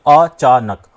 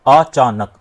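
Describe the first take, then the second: Both takes have the same delivery.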